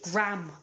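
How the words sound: It is said with an American pronunciation. The speaker calls it wrong. "Americans pronounced it Graham"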